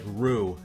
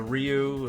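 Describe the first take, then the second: First: The name sounds like the word 'rue'. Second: The name has a 'ry' glide at the start. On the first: The speaker calls it right. "I think it's like Rue" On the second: The speaker calls it wrong. "I think I still didn't get it right"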